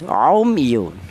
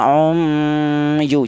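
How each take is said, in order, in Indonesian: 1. Bunyi m diucapkan dengan jelas dan tegas. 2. Bunyi m kabur menjadi dengung sengau. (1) "Tapi jelas" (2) "Jangan ikhfa, jangan"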